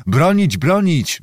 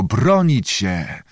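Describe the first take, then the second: First: Higher-pitched, restrained yell; mild crowd yell. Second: Slow, drawn-out echo. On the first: Assembly demands defence of the city, mild high yell. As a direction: chant it like a roused assembly, held back. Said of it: "wrzeszczało zgromadzenie". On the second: Church vaults repeat the crowd's cry, slow echo. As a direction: stretch the words out like an echo. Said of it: "echo odbite od sklepień powtarzało". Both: A narrator's reading.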